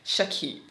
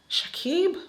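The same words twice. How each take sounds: First: Said in the usual way. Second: Swooning call. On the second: Real, not acted. Savouring his name, crushing on him.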